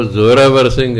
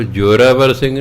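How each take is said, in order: First: ਜ਼ੋਰਾਵਰ said with a clear z sound, zoravar; correct pronunciation. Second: ਜ਼ੋਰਾਵਰ said with a j sound, jorabar; ਜ਼ੋਰਾਵਰ with j in place of z and b in place of v; wrong pronunciation. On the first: Preacher teaching the congregation the right ਜ਼ੋਰਾਵਰ with a z sound. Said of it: "ਜ਼ੋਰ ਫਾਰਸੀ ਦਾ ਸ਼ਬਦ ਹੈ". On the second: Preacher showing the mistaken ਜ਼ੋਰਾਵਰ with a j sound. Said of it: "ਉਹ ਜ਼ੋਰਾਵਰ ਸਿੰਘ ਨਹੀਂ". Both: Shown as a demonstration.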